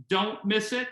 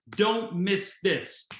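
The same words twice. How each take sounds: First: Firm, punched "don't miss it" with "it" lifted at the end; emphatic. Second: Very slow, heavy "Don't miss this" with "Don't" stressed and the final "this" held long; slow emphatic. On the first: Leader urging the team not to miss the launch, emphatically. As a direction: press each word of "don't miss it" hard. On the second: Leader repeating the launch warning, slow and weighty. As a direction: drag out "Don't miss this" word by word. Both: Shown as a demonstration. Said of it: "I'll even say it more emphatically".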